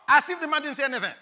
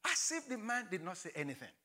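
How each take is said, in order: First: Loud, fast "As if the man didn't say anything"; emphatic. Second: Hushed. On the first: Preacher stresses God ignoring Gideon, loud and fast. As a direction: fire it out quickly and loudly. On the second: Preacher repeats God ignoring Gideon, hushed and soft. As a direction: let it drop to a hush. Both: Shown as a demonstration.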